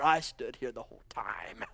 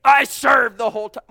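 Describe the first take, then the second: First: Lower, whispered sulky complaint; self-righteous whisper. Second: Loud, indignant protest; self-righteous outburst. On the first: Elder brother complaining to father, whispered. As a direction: hiss the grievance under your breath. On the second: Elder brother protesting to father, indignant shout. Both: Acted. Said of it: "self-righteous there".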